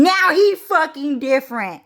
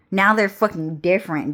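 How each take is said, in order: First: High, loud mock European accent; badly faked British or French accent; attempted European accent. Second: Said in the usual way. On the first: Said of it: "I don't really do British accent or, like, French accent".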